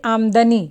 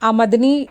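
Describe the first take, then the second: First: The first syllable carries the stress. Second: The first syllable carries no stress. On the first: The speaker calls it right. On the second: The speaker calls it wrong.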